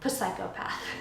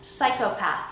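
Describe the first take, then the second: First: The initial P is pronounced aloud. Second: The initial P is silent. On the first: The speaker calls it wrong. "You wouldn't say psychopath" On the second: The speaker calls it right. "Kind of like psychopath"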